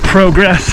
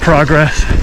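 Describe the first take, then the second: First: It is said the Canadian way. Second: It is said the American way. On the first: "they say progress" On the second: "rather than progress"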